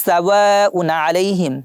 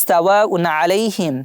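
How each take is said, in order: No difference in how they are said.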